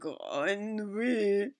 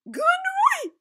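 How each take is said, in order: First: It is said in a lower-pitched voice. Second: It is said in a very high-pitched voice.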